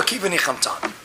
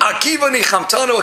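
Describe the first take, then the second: First: Soft low echo. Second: Said in the usual way. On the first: Shown as a demonstration. Teacher echoing the Talmud's closing words, soft and low. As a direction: lower and softer, like an echo.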